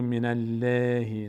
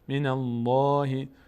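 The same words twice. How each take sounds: First: The L in Allah is thin and light. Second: The L in Allah is full and heavy. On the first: The speaker calls it wrong. "نمیگم من الله" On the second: The speaker calls it right. "صدا رفت به سمت بالا"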